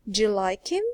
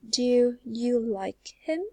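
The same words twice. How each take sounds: First: 'Do you' blends into one 'j' sound. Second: Each word is said separately, without blending. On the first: "so you would say" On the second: "instead of saying"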